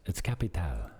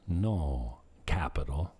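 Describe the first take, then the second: First: CAPITAL as ca-pi-TAL, stress at the end; local pronunciation. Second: Slow, lower CAPITAL, stressed CAP-i-tal; English pronunciation. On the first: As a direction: put the accent on TAL in CAPITAL. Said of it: "they put the accent on the end". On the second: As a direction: say CAPITAL slowly the American way. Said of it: "putting an accent on when I say capital". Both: Shown as a demonstration.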